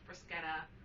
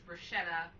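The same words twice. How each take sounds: First: It uses a pronunciation unlike the American one. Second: It uses the common American pronunciation. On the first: The speaker calls it right. "It's pronounced bruschetta" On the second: The speaker calls it wrong. "in America everybody says bruschetta. It's not right"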